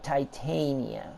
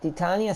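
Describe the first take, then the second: First: The name is said with an English-sounding pronunciation. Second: The name is said with a Spanish-sounding pronunciation. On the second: "Titania sounds very Spanish"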